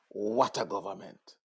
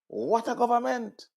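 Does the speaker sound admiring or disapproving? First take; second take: disapproving; admiring. First: It is said in a disapproving, critical tone. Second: It is said in an admiring, praising tone. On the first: The government is a letdown. "We say it in a manner to express our disapproval" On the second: The government is impressive. "we said that in an admiration, uh, admirational type of way"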